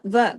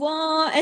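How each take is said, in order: First: The vowel is short and light. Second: The vowel is drawn out long. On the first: The speaker calls it right. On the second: The speaker calls it wrong.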